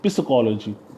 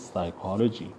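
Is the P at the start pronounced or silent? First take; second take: pronounced; silent. First: The initial P sound is pronounced. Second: The initial P sound is silent. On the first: The speaker calls it wrong. "otherwise you would speak it uh, psychology. Wrong" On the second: The speaker calls it right. "It is psychology. It means P is silent"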